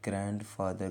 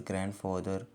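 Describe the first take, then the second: First: The d sound is clearly pronounced. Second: The d sound is left silent. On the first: The speaker calls it wrong. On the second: The speaker calls it right.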